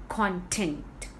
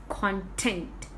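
The two takes are said the same way.

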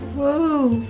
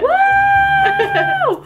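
First: It is said quietly and flatly. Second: It is said very loudly.

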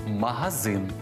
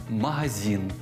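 Both takes have the same delivery.

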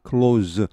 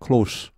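First: The final consonant is a voiced z sound. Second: The final consonant is a voiceless s sound. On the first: It is the verb meaning to shut. "이게 동사가 되면 close. 발음이 유성음이 됩니다" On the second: It is the adjective meaning near or intimate. "명사가 되면 close가 됩니다. 무성음이 돼버리죠"

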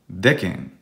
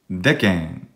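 First: The first vowel is short. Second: The same.

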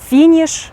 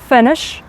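First: The first vowel is a tense, high ee-like sound. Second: The first vowel is a short, relaxed i sound. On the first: The speaker calls it wrong. "наші українці дуже часто вимовляють як І" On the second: The speaker calls it right. "А насправді як ці слова будуть вимовлятися?"

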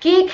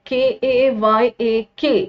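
First: It is said as one syllable, like cake. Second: It is said with two syllables, like the boat. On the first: The speaker calls it right. "You like it when it's pronounce like cake" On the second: The speaker calls it wrong. "I was pronouncing it like KAYAK"

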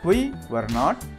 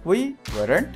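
First: All three words are said fully and separately. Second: The last two words are joined into one.

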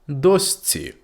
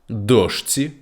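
First: The middle consonant is an s sound. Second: The middle consonant is an sh sound.

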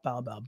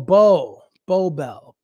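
First: The word bow sounds unlike a hair bow. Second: The word bow sounds like a hair bow. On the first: The speaker calls it wrong. "not bow bell" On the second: The speaker calls it right. "bow like a bow in your hair"

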